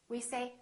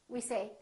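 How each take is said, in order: Both takes have the same delivery.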